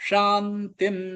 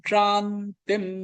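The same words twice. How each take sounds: Both takes have the same delivery.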